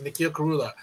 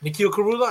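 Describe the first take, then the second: First: "Nikhil Karula." falling flat and settled at the end; firm statement. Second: "Nikhil Karula?" with the pitch rising at the end like a question; questioning tune. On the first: Repeating his name to the comedian, "Nikhil Karula." with a firm falling close. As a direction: state "Nikhil Karula." as a plain final fact. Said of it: "I said". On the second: Telling the comedian his name, "Nikhil Karula?" rising like a question. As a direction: ask "Karula?" with an upward lift. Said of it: "And I said". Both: Retold or imitated.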